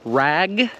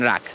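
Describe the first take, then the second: First: The word ends in a voiced g sound. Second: The word ends in a voiceless k sound. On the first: The speaker calls it right. "G and k" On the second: The speaker calls it wrong. "you might be pronouncing it rack and rack"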